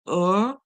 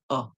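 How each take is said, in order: First: The vowel is said with an r-colored sound. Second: The vowel is a short relaxed schwa without r. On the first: "if you are using American English, that's when you'll hear er as in the roll for it" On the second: "if you're using the British English, you'll hear the schwa sound uh"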